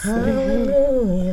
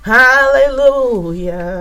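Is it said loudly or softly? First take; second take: softly; loudly. First: It is said softly. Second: It is said loudly.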